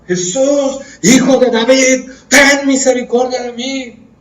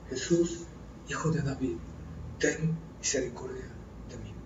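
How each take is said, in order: First: Loud, high, slow cry for mercy; shouted plea. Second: Soft low "Jesús, hijo de David"; quiet plea. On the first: Blind man crying out to Jesus over the crowd, a loud high slow cry. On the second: Preacher quoting blind Bartimaeus softly, a quiet low plea. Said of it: "¿Qué decía el ciego Bartimeo?". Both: Acted.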